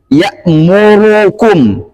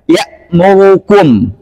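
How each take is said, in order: First: The u vowel after r is pronounced fully and clearly. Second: The u vowel after r is slurred and barely audible. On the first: The speaker calls it right. "Saya contohkan yang benarnya dulu" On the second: The speaker calls it wrong. "Saya baca yang ikhlas"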